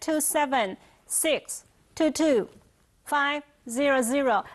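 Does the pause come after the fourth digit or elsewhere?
elsewhere. The digits are broken at an odd, random place. The speaker calls it wrong. "不可以自己随便断"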